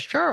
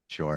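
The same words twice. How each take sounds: First: The word sounds bright and enthusiastic. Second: The word sounds flat and reluctant. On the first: The speaker is happy to help. "You could mean it as a very positive" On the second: The speaker agrees to help unwillingly. "Or it could be like"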